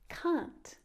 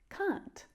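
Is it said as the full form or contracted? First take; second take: contracted; contracted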